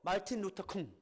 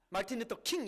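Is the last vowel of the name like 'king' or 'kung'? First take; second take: kung; king. First: The last word is said with an 'oo' vowel. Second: The last word is said with an 'ee' vowel. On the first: The speaker refuses to grant the man the title of king. The speaker calls it wrong. "마틴 루터 쿵 이렇게 발음하는 사람도 있어요" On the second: The name is given its proper form. The speaker calls it right. "마틴 루터 킹 이렇게 안 하고"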